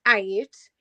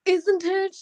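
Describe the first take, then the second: First: "ain't" said as the local slang form; dropped-consonant slang form. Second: "isn't it" said high and fully articulated; careful proper pronunciation. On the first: Sister quotes the wrong word "ain't", slang pronunciation. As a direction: mimic the disapproved "ain't". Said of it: "you don't say". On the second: Sister models the proper "isn't it", carefully enunciated. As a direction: enunciate every sound of "isn't it". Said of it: "you say". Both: Retold or imitated.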